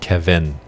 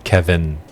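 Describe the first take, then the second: Both takes have the same delivery.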